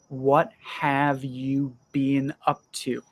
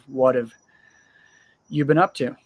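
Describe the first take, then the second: First: The word 'have' is said in full. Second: The word 'have' is reduced to a weak 'of'. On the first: "obviously the words are" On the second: "I would use the contraction"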